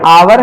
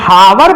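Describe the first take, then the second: First: The word starts with a vowel, h silent. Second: The word starts with an audible h sound. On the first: The speaker calls it right. "एच क्या है, silent है" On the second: The speaker calls it wrong. "जो nine tenth के बच्चे ज्यादातर पढ़ते हैं"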